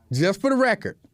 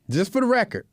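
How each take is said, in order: Both takes have the same delivery.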